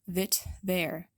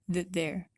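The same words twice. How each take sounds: First: The T in 'that' is released with a burst. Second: The T in 'that' is stopped without release. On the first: The speaker calls it wrong. "If we released it, it would sound like that" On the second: The speaker calls it right. "make sure you get that stop between the words that and there"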